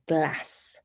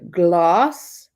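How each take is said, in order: First: It is said in a northern English accent. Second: It is said in a southern English accent. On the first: "in the north" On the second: "in the south"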